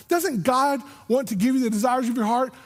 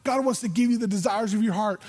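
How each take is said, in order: First: "Doesn't God want" higher, rising as a challenge; questioning. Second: Said in the usual way. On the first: Acted. Christians challenging the preacher, "Doesn't God want" pitched up questioningly. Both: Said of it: "how many times I've heard Christians say".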